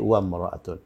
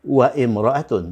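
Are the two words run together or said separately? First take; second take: run together; separately. First: The initial i is dropped, joining the words. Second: The initial i is kept as a separate vowel. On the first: The speaker calls it right. "tapi wamra'atun... hamzah wasalnya ini enggak dibaca" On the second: The speaker calls it wrong.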